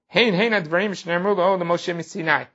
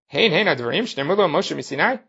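First: It is said as an admiring statement. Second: It is said as a rhetorical question.

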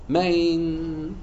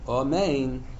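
First: The first vowel is swallowed almost completely. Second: The first vowel is fully pronounced. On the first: The speaker calls it wrong. "So he left out the aleph" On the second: The speaker calls it right. "instead of saying"

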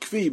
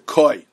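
First: The word sounds like 'kvee'. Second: The word sounds like 'koy'. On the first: This is a less common pronunciation. "Some pronounce it kvi" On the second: This is the more common pronunciation. "it's more commonly referred to as a koi"

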